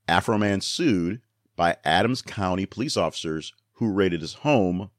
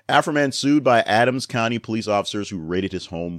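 First: It is read at a slower pace. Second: It is read at a faster pace.

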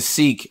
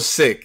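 First: The vowel is long, like 'seek'. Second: The vowel is short, like 'sick'. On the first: The speaker calls it wrong. "I was saying seek. I was one of the guys doing that" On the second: The speaker calls it right. "that's even more reason for me to say the shit right. So it's real sick"

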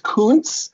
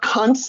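First: It does not sound like a rude word. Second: It sounds like a rude slang word. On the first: The speaker calls it right. "it's Kuntz" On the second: The speaker calls it wrong. "It's not Kuntz"

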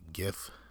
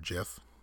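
First: The word begins with a hard G sound. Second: The word begins with a J sound. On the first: "it's a little bit more intuitive to say GIF" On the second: "JIF is if it were with a J"

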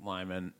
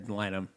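First: The name ends with a 'man' sound. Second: The name ends with a 'nam' sound. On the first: The speaker calls it wrong. "that's what I was saying it wrong" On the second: The speaker calls it right. "It's Lynam"

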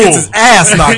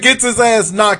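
First: The word 'ass' carries strong stress. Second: The word 'ass' carries no special stress. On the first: This is the way one person said it. "Accent on the ass" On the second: This is the ordinary way to say it. "Anybody else would have said"

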